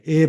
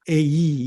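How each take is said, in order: First: The vowel is a plain steady e. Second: The vowel glides from e into i.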